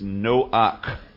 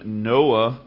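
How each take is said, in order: First: The name ends in a throaty ch sound. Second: The name ends in an open vowel.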